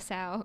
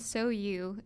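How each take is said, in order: First: The name is said as one syllable. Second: The name is said as two syllables. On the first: The speaker calls it wrong. "Don't call it Sow" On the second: The speaker calls it right. "you need to pay attention to that pronunciation"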